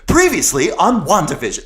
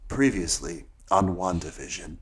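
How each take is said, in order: First: It is said with high, upbeat energy. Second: It is said with low, tired energy.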